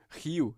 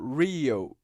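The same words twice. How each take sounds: First: The initial R is not retroflex. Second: The initial R is retroflex, tongue curled back. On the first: "e não Rio" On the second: "teria o mesmo som"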